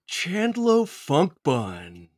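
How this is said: It is said in a put-on character voice.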